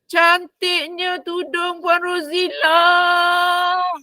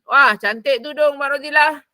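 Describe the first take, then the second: First: It sounds like sincere, admiring praise. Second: It sounds angry and jealous, not admiring.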